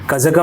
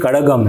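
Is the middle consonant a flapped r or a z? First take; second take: z; flapped r. First: The middle consonant is a z sound. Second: The middle consonant is a flapped r sound. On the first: The speaker calls it wrong. "नहीं" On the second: The speaker calls it right. "ड़ का उच्चारण सही करता हूँ"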